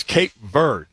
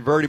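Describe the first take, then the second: First: "Verde" in "Cape Verde" said as VURD; one syllable for "Verde", silent final E; corrected pronunciation. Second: "Verde" said as VUR-dee; two syllables in "Verde", ending in ee; announcers' pronunciation. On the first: Shown as a demonstration. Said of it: "came on and corrected everybody". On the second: Retold or imitated. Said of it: "the announcers were saying Verde".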